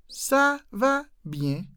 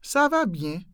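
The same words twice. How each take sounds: First: "Ça va bien" slow and high, each word separate. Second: Said in the usual way. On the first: Shown as a demonstration. Teacher breaking down the French answer slowly. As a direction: spell out "Ça", "va", "bien" with pauses.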